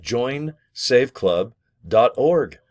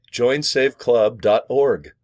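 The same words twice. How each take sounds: First: Drilled web address, slow; slow repeat of address. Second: Drawn-out web address for viewers; slow, spelled-out address. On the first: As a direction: join save club dot org slowly again, org held long. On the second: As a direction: join save club dot org said slowly, each piece separate. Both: Shown as a demonstration. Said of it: "Can you remember that?".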